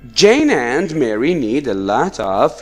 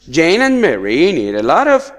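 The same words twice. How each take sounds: First: The phrase is read at a slow pace. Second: The phrase is read at a fast pace. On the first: The speaker calls it right. "I will try to make uh, my reading slower" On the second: The speaker calls it wrong. "sorry, I was too fast"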